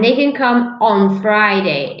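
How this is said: The stress is on the word Friday. It is about a specific day of the week. "If I stress on Friday"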